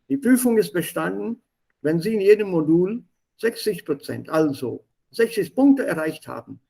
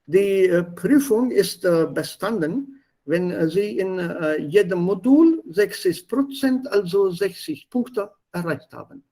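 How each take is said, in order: First: It is read smoothly with German intonation. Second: It is read haltingly with Indian-accented intonation. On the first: The speaker calls it right. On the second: The speaker calls it wrong. "This is not German intonation. This is also not German pronunciation"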